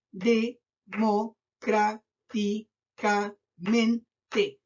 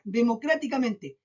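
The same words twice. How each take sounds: First: Democráticamente in seven slow, separate beats; syllable by syllable. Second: Said in the usual way. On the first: Shown as a demonstration. Teacher counting seven syllables for pupils, very slow, syllable by syllable. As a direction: chop it up with a pause after every syllable. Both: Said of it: "siete sílabas".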